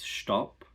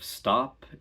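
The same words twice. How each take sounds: First: It begins with an sh-t sound. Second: It begins with a plain s-t sound. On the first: "it's no longer st, it's sht" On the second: "instead of stop"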